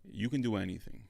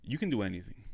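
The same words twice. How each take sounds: The two takes are said the same way.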